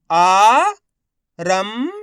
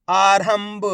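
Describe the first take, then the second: First: आरंभ stretched very slowly, rising at the end; drawn-out sounding out. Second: Said in the usual way. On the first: Shown as a demonstration. Teacher sounds out a word slowly for kids. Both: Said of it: "मैं किस तरीके से".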